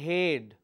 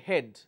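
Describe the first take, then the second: First: The vowel is drawn out long. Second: The vowel is kept short. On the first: The speaker calls it wrong. "We don't say head" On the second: The speaker calls it right. "we say head"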